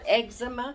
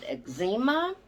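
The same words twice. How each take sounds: First: It uses the modern, current pronunciation. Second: It uses the older, regional pronunciation. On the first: This is the name used nowadays. "we didn't call it eczema" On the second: This is the name used in earlier days. "We called it eczema, is the way it was pronounced"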